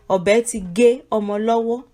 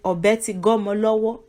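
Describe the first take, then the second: First: The words are said separately at normal speed. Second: The words run together quickly into one word.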